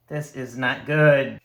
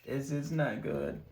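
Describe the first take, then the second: First: Said louder and slower, dismayed. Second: Softer, muttered under the breath; soft, worried repeat; quiet dismay. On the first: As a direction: groan it out loud at the dice. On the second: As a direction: drop to a worried hush. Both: Real, not acted. Dice going badly, repeated.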